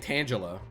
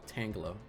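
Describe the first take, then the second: First: It begins like tan, as in Angela. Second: It begins like tang, as in tangle. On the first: The speaker calls it wrong. "I was saying Tangela" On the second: The speaker calls it right. "oh, Tangela"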